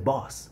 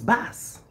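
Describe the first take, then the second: First: The vowel is rounded, like in 'boss'. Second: The vowel is open and unrounded, near 'bass'. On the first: "Back in Africa or in my country, people would say boss" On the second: "but here is bass"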